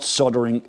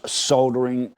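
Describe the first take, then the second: First: It is said in an American accent. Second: It is said in a British accent. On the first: The speaker calls it wrong. "for you Yanks, this is not soldering" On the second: The speaker calls it right. "it's soldering"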